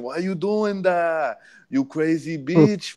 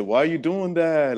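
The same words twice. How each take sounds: First: Higher, slow Spanish accent imitation; mock Spanish accent, high and slow. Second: Said in the usual way. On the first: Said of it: "with an accent". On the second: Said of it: "he said it with a, with an accent".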